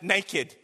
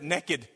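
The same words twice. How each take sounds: First: The word has a standard, non-Southern pronunciation. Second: The word has a Southern, 'nekkid'-like pronunciation. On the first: "maybe you don't pronounce it naked" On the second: "If you're from the South, You pronounce it naked"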